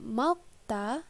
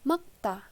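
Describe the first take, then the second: First: An l sound is pronounced before the k. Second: The l sound is dropped before the k. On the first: The speaker calls it wrong. "bukan dibaca malkta" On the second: The speaker calls it right. "tapi dibaca makta"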